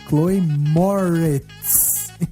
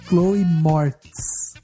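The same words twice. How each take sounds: First: The surname does not sound like 'morte'. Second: The surname sounds like the word 'morte'. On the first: The speaker calls it right. "é Chloe Moretz. Então não tem nada a ver com morte" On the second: The speaker calls it wrong. "o nome dela não é Chloe Moretz"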